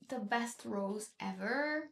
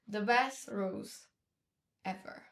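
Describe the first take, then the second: First: It is said in an exaggerated Valley Girl style. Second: It is said in a plain, ordinary style.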